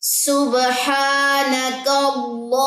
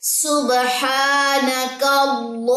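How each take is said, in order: No difference in how they are said.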